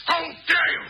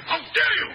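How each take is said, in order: First: Outraged shout. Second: Outraged royal shout, higher; indignant emperor yelling; shaking with anger. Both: Acted. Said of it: "The emperor wishes to quench his thirst".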